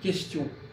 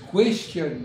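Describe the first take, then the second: First: It starts with a plain k sound. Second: It starts with a kw sound. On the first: This is how French speakers say it. "nous on dit question ... nous on ne le prononce pas" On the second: This is how English speakers say it. "Ils disent question, ... ils prononcent le U"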